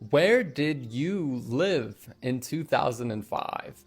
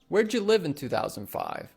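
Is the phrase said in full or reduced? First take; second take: full; reduced. First: Where did you is said as three full words. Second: Where did you is squeezed into where'dya. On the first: "Instead of saying" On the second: "We'll ask"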